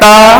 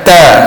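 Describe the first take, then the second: First: The t is released without a puff of air. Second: The t is released with a strong puff of air. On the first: The speaker calls it wrong. "Kalau kita kata ta, itu kurang tepat" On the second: The speaker calls it right. "Kalau kata ta, baru kata ah, itu tepat"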